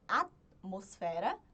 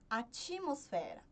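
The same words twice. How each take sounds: First: The T is released with no vowel after it. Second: An extra i vowel follows the T sound. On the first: "a gente não adiciona nenhuma vogal" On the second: "Eu sempre adiciono um I"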